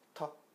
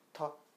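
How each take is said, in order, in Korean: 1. 첫 자음은 강하고 세게 튀기는 소리예요. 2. 첫 자음은 강하고 세게 튀기는 소리예요.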